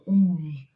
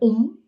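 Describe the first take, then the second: First: It moves slowly from ah through oo to m. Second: It is said as one short om syllable. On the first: The speaker calls it right. "You have to start with the A and you go into the U" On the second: The speaker calls it wrong. "That's not the right way"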